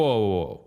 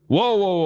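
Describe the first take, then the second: First: Said in the usual way. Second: Sharp, high, loud cop-style "Whoa, whoa" to freeze him; sudden shout. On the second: Retold or imitated. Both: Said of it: "the guy screams".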